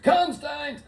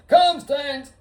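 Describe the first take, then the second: First: High calling yell for a dog; mock calling out. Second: Higher, louder yell for the dog; mock shout. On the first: Calling his lost dog across the street, high mock call. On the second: Calling his lost dog in the streets, high loud mock shout. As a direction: bellow the dog's name.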